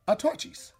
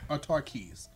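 First: The 'ch' is said as in 'church'. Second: The 'ch' is said as a 'k' sound. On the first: The speaker calls it wrong. "That is incorrect" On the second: The speaker calls it right. "that CH as a K sound"

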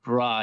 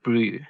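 First: The vowel is an open 'ah' sound. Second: The vowel is a rounded 'oo' sound. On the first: The speaker calls it wrong. "we don't pronounce it bra" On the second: The speaker calls it right. "We pronounce it brew"

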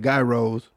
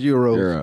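First: It is said in the local Detroit way. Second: It is said in the standard way. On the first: This is how people in one city say it. The speaker calls it wrong. "I know you don't supposed to say it like that, but in Detroit, that's how we say it" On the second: This is how it is supposed to be said. The speaker calls it right. "Yeah, it's Euros"

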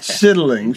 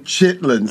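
First: The word is said in full with three syllables. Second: The word is shortened to two syllables. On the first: This is the proper full form of the word. "She pronounces it properly" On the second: This is the everyday name people use. "what we call the chitlin circuit"

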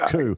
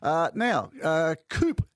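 First: The word ends in a vowel, no p. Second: The word ends with a sounded p. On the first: "as in military coup" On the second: "Is that how you pronounce this"

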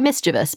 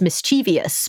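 First: The ending does not rhyme with devious. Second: The ending rhymes with the word devious. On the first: The speaker calls it right. "but it's actually mischievous" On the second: The speaker calls it wrong. "because they think it rhymes with devious"

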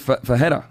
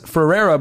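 First: The name is said in the Portuguese way. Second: The name is said in a common English way. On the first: This is the real pronunciation. The speaker calls it right. "but it's really Ferreira" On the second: This is how most people say it. The speaker calls it wrong. "everyone says Ferreira"

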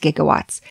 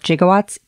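First: The word begins with a hard G sound. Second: The word begins with a soft J sound. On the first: The speaker calls it right. "oh, it's gigawatts" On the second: The speaker calls it wrong. "pronouncing it with the J sound, like gigawatts"

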